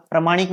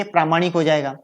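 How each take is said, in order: First: प्रामाणिक said with short "pra"; incorrect form. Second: प्रामाणिक with long "praa"; correct form. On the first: Teacher showing students the error, प्रामाणिक with short first vowel. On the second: Teacher correcting the word, प्रामाणिक with long first vowel. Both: Shown as a demonstration. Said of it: "नहीं होके प्रामाणिक हो जाएगा".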